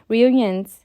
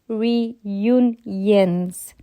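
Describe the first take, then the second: First: The word is said quickly and slurred. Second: The word is said slowly and carefully. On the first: The speaker calls it wrong. "when I'm reading fast or when I'm talking fast" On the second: The speaker calls it right. "I can say it when I say it like that"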